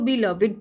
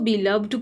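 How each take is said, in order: First: The ending is a separate syllable, three syllables. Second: The ending is a bare d, two syllables. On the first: It describes a noun or is itself a noun. "आप इसको बिलविड पढ़ रहे हो" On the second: It is an adjective followed by a preposition. "हम इसको बिलव्ड पढ़ते हैं"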